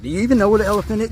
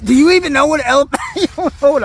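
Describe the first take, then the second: First: Fast teasing question. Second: Louder teasing repeat. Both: Real, not acted.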